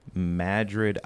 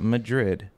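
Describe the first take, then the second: First: It sounds like the Iowa town's local name. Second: It sounds like the Spanish capital's name. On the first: This is the small town in Iowa. The speaker calls it right. "Madrid, Iowa" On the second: This is the city in Spain, not the town. The speaker calls it wrong. "not Madrid"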